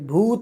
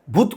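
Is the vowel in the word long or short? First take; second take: long; short. First: The vowel u is drawn out long. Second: The vowel u is said short. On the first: The speaker calls it right. "भूत म्हणतं ... भूतला तुम्ही जसं वाढवलं ना ते long आहे" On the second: The speaker calls it wrong. "भूत कुणी म्हणत नाही"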